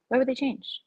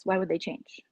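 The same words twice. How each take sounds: First: "would" w wyższym tonie, podkreślone; stress on would. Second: Said in the usual way. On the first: Shown as a demonstration. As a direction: lean on "would", pitch up.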